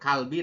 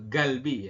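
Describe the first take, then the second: First: The word begins with a k sound. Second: The word begins with a g sound. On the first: The speaker calls it wrong. "bukan bukan kalbi" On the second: The speaker calls it right. "galbi ya"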